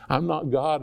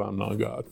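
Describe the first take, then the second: First: Said in the usual way. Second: Softer, dropped to a near hush on "I'm not God"; soft aside. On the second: Shown as a demonstration. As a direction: let "God" fall away quietly, almost to yourself. Repeats line, second softer.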